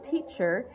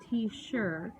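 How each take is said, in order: First: The middle consonant is a ch sound. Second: The middle consonant is an sh sound. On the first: The speaker calls it right. "instead of saying teacher" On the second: The speaker calls it wrong. "he called me T-sure"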